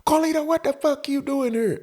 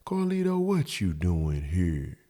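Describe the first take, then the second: First: Very high mock female screech; high, put-on angry woman voice; yelling out the window. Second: Hushed, slow mock-sweet woman; put-on innocent soft voice. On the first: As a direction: imitate her yelling down, pitched way up. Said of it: "She yelling out the window". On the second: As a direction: ask it softly, dragged out and innocent. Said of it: "talk softly".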